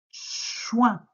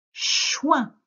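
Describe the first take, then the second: First: Chouin said a bit higher and clear; dictation word. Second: Chouin said high and loud, clearly articulated; dictation word. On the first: Teacher repeating chouin in a dictation, clearly. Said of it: "Je redis". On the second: Teacher dictating chouin to a pupil, loud and high. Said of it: "Tu écris". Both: Shown as a demonstration.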